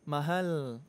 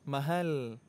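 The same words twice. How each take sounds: Both takes have the same delivery.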